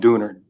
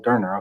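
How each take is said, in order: First: It is said with a local American pronunciation. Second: It is said with the original pronunciation. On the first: The speaker calls it wrong. "we call them Dooner, Dooners or Donors down there, because we don't know how to pronounce them properly" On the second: The speaker calls it right. "I had to listen to you say it, and I was like, oh, Durner, okay, got it"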